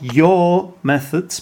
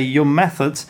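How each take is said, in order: First: The word 'your' is said in its full, strong form. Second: The word 'your' is said in its reduced, weak form. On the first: The speaker calls it wrong. "Not your methods, because there's no need to emphasize it" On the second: The speaker calls it right. "You just say your methods"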